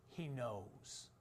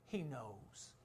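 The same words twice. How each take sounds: The two takes are said the same way.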